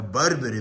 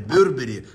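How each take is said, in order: First: The first syllable is said with an open 'a'. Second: The first syllable is said with a rounded 'yo'. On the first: The speaker calls it wrong. "Как правильно говорить?" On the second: The speaker calls it right. "Нет, Бё, через Бё, да?"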